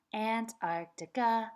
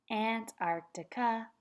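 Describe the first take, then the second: No difference in how they are said.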